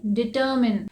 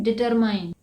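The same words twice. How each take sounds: First: डिटरमिन ending in a short "min"; डिटरमिन said "di-ter-min"; correct determine. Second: डिटरमाइन ending in "mine"; डिटरमाइन said "deter-mine", the common mistake; डिटरमाइन with a long "ai" at the end; wrong determine. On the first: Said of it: "लेकिन इसे क्या कहते हैं". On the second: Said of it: "इसे डिटरमाइन नहीं कहते हैं". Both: Shown as a demonstration.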